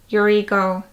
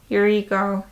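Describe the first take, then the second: Both takes have the same delivery.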